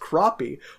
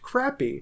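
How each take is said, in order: First: The word is said in the American way. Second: The word is said in the British way. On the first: "gives the American pronunciation as crappie" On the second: "in British English, the fish name is pronounced crappie"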